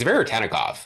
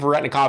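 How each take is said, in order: First: The name is said with every syllable. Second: The name is said with a syllable dropped. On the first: The speaker calls it right. "It's Veretennikov" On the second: The speaker calls it wrong. "I think everybody's just super lazy with it"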